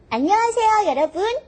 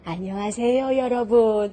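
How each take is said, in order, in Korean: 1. 높고 조이는 목소리, 아이 목소리 같아요. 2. 낮고 허스키한 목소리, 할머니 목소리 같아요. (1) "성대를 많이 조여요. 그래서 톤을 높게" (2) "허스키한 목소리를 해서 톤을 좀 낮춰요"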